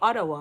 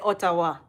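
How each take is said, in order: First: It is said the way local people say it. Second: Each letter is sounded out, following the spelling. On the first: The speaker picks it up from people nearby. "that's what people say around me every day" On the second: The speaker reads the word off the page. "me I go say them how it pronounce"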